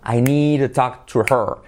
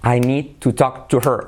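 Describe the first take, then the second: First: Words run together and the H is dropped. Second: Each word is said separately, with a full H.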